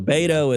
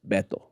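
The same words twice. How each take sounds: First: It is said with a Texan-style pronunciation. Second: It is said with a Spanish-style pronunciation.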